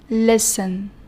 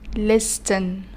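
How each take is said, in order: First: The t sound is silent. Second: The t sound is pronounced. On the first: The speaker calls it right. "So we pronounce the word like this" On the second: The speaker calls it wrong. "not listen"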